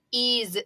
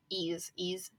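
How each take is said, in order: First: Said in the usual way. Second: Breathy voiceless whisper of ease, ease; whispered echo. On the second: Shown as a demonstration.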